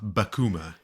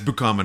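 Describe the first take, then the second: First: The first syllable sounds like 'buh'. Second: The first syllable sounds like 'boo'. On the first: The speaker calls it wrong. "not bakuma, like everyone was saying" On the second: The speaker calls it right. "it's bukama"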